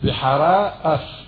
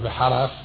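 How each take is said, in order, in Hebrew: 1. שתי המילים נשמרות נפרדות בעזרת עצירה גרונית. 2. המילים מתחברות יחד והעצירה הגרונית נעלמת.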